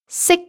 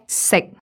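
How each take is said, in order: First: It is said on a high level pitch. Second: It is said on a low level pitch. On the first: "Entering high flat" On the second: "entering low flat"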